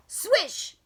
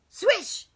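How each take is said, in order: Both takes have the same delivery.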